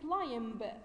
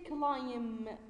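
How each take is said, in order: First: The final b is pronounced. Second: The final b is silent. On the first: The speaker calls it wrong. "don't say climb" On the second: The speaker calls it right. "We say climb, ... B is silent"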